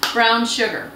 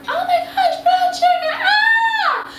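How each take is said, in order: First: Said in the usual way. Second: Very high, gushing squeal of delight; excited squeal. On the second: Acted. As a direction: squeal over the brown sugar. Gushes over brown sugar.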